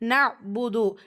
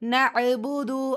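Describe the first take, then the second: First: The 'ain sound is held still without a bounce. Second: The 'ain sound is released with an echoing bounce.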